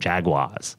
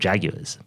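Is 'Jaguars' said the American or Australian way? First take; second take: American; Australian. First: It is said the American way. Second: It is said the Australian way. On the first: "but in the US, it's the Jacksonville Jaguars" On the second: "I started talking about the Jacksonville Jaguars"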